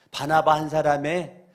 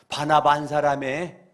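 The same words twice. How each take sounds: The two takes are said the same way.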